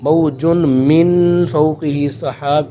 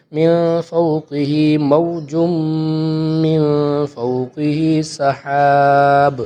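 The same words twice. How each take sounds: First: موج joined straight onto من with no stop; wrong reading demo. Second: Slow chant with a stop after موج; correct recitation. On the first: Teacher shows students the wrong joined reading, quicker. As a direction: run موج into من without pausing. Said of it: "یہ غلط ہوگا". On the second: Teacher models the right stop for students, slow chant. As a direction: recite slowly, pausing on موج. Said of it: "تو اس کو اس طرح پڑھیں گے". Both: Shown as a demonstration.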